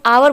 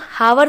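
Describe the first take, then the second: First: The word starts with a vowel sound. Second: The word starts with an h sound. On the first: The speaker calls it right. "इसे हम आवर बोलते हैं" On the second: The speaker calls it wrong. "इसे हम हावर नहीं बोलते"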